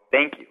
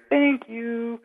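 First: Lightly voiced woman, a touch higher on "Thank you."; hint at the mystery woman on the tape; imitating a woman's voice. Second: "Thank you." pitched much higher and far off; ghostly woman imitation. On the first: Telling hosts about the recording, a mild imitation of the woman. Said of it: "another woman go". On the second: Replaying the EVP for podcast hosts, high ghostly imitation. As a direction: mimic the faint ghost voice from the recording. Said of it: "Clear as day, crystal clear".

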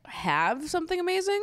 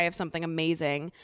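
First: High, rising disbelieving question; incredulous echo. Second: Said in the usual way. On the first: Retold or imitated. Recapper challenging Tanya's claim about Shaq, incredulous. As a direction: throw the claim back, climbing sharply in pitch.

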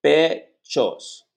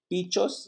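First: 2 pechos with a clear e: pe-chos; 3 repeat the tutor: pechos with open e; 4 corrected pechos, firmer and louder. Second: 2 Bichos with an i sound, like pitchos; 3 say Bichos, vowel i instead of e; 4 wrong vowel: Bichos as pitchos. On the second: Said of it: "tú tienes que pronunciar una E, no una I". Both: Shown as a demonstration.

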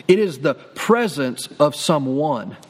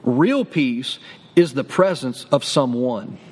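First: Slow low repeat. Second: Low, slow, every word weighted; weighty slow declaration; slow low emphasis. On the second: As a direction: let it land slowly and low. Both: Shown as a demonstration. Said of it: "I'm gonna say that again".

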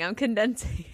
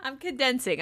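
First: Hushed repeat; whispered aside. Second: Said in the usual way. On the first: Real, not acted. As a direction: murmur it under your breath.

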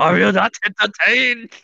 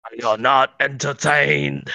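First: High mock Chinese-dubbed gladiator; movie line in a pitched-up caricature Chinese accent; Russell Crowe. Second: Slow, declamatory gladiator challenge; Russell Crowe. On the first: Redoing the movie line as a dub, high mock Chinese accent. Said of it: "That's a Russell Crowe Chinese dub". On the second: Acted. Answering the entertaining-podcast question, slow movie-hero impression. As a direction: ring it out slowly like an arena hero. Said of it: "That's a Russell Crowe".

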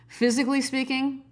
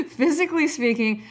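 First: Said in the usual way. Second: "Physically speaking" said through a laugh. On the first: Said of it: "I'm just kidding". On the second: Real, not acted. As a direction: restart the line still giggling. Restarts while still laughing.

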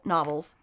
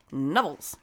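First: Said in the usual way. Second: Novels with the first vowel as in "Nev", like the name Neville; Novels said as Neville's. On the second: Shown as a demonstration. Joking about the author's name, saying Novels as Neville's. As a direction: say Novels as Neville's, a deliberate mispronunciation.

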